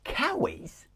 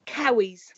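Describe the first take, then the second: First: Cowies? tried back, high and questioning; puzzled repeat. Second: Cowies said as kow-eez, like cow; Sunderland slang word. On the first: Real, not acted. Host hears the slang word for joggers, puzzled high echo. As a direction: echo the strange word, baffled. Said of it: "As in cow, as in moo?". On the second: Shown as a demonstration. Teaching the podcast host a Sunderland word, Cowies said kow-eez. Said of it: "Here's the one that you might use".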